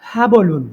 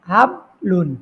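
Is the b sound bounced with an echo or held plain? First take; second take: bounced; plain. First: The b is released with a bouncing echo. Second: The b is held plain without any bounce. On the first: The speaker calls it right. "এই যে বাটাকে আমি একটু লাড়াইয়া পড়লাম" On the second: The speaker calls it wrong. "এই হাবলুন পড়লে পড়াটা সহি হলো না।"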